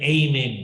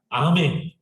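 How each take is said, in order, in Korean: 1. 첫 모음은 미끄러지듯 나는 'ay' 소리예요. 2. 첫 모음은 입을 크게 벌리는 'ah' 소리예요. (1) "미국 사람들은 에이멘 그래요" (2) "한국 사람이 더 정확해"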